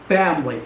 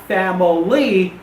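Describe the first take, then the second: First: "family" as FAM-lee, falling; two-syllable family. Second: "family" slowly in three syllables, fam-uh-LEE; mispronounced family. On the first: Teacher correcting students, "family" in two syllables. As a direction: cut the middle vowel from "family": fam-lee. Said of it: "it's family". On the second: Teacher contrasting for students, "family" wrongly in three syllables. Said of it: "it's not family". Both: Shown as a demonstration.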